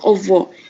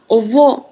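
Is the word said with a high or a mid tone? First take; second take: mid; high. First: The word is said on a mid tone. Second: The word is said on a high tone. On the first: It does not mean work and can cause confusion. "if you say with the mid tone" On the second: It means work. "when we say with a high tone"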